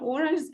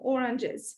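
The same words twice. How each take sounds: First: The voice rises on this word. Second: The voice falls on this word. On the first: More items follow in the list. "it rises on each item" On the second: It is the last item in the list. "my voice falls on the last item, oranges"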